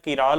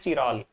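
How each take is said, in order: First: It starts with a k sound, then an a vowel. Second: It starts with a ch sound, then an a vowel. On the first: "और कुछ कहते हैं किराल" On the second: "और कुछ कहते हैं चिराल"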